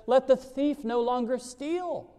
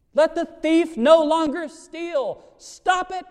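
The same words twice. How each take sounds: First: Said in the usual way. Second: "Let the thief no longer steal" higher, louder and slow, "Stop it" barked; forceful repeat. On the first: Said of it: "The scripture says". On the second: Shown as a demonstration. Preacher repeating the verse to drive it home, loud and commanding. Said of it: "there has to be the stop it".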